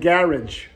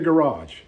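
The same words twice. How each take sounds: First: It is said with a British accent. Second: It is said with an American accent.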